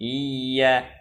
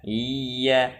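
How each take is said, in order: Both takes have the same delivery.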